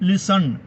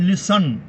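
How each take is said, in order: The two takes are said the same way.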